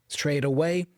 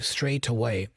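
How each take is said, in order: First: The T is pronounced as a soft flap. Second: The T is pronounced as a crisp true T. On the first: "A typical American would flap that T" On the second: "but with a true T sound"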